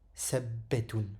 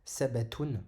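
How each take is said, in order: First: The b sound is held and doubled. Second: The b sound is short and single. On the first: "Mais avec une shadda, ça donnera sabbetun" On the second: "s'il n'y avait pas de petite shadda ici, il se prononcerait sabatun"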